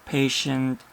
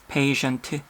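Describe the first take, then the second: First: The final t is released lightly without a vowel. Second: The final t is followed by an added vowel. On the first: The speaker calls it right. "남는 호흡으로 그냥 patient 해주시면 돼요" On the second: The speaker calls it wrong. "이런 식으로 뒤에 트, 트, 트 이렇게 모음 섞어서 쓰는 거 한국 사람들이 진짜 많이 하는 거예요"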